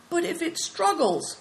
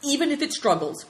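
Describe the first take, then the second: First: High, uncertain question; worried objection. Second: High, firm declaration; resolute. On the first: Companion doubting Big Tiger's plan, worried and high. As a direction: raise a nervous doubt, pitched high. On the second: Big Tiger insisting on his plan, resolute. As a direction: answer the doubt with resolve. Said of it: "declared Big Tiger resolutely". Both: Acted.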